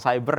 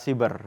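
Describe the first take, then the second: First: The word is pronounced the English way. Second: The word is pronounced the Indonesian way. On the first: The speaker calls it wrong. "itu ejaan apa namanya bahasa asing" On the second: The speaker calls it right. "menurut ejaan bahasa Indonesia yang benar adalah cyber"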